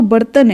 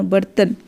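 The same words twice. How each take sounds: First: बर्तन broken into ba-ra-ta-na; syllable-by-syllable demo. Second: Said in the usual way. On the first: Shown as a demonstration. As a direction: sound out बर्तन as if writing it. Spelling out word while writing it. (बर्तन को तोड़कर, ब-र-त-न)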